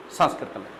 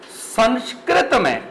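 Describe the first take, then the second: First: Said in the usual way. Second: Sanskrit drawn out slowly and stressed, falling at the end; slow stress on Sanskrit. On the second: Shown as a demonstration. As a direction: say Sanskrit slowly with weight, letting it fall.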